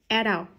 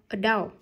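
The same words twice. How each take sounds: First: The stress is on the first syllable. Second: The stress is on the second syllable. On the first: "adult thì nhấn mâm a" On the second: "còn adult nhấn mâm đau"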